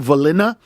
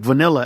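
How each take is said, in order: First: The l and n sounds are swapped. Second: The l and n sounds are in normal order. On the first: A small child said it. The speaker calls it wrong. "my son used to say Valina" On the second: An adult corrects it. The speaker calls it right. "I was like vanilla"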